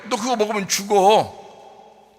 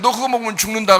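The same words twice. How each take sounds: First: Slow, grave voice of God; God warning. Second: Said in the usual way. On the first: Acted. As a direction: draw out the warning slowly. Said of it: "하나님 입장에서 뭐예요?". (하나님의 느리고 엄숙한 경고) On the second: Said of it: "하나님 입장에서는".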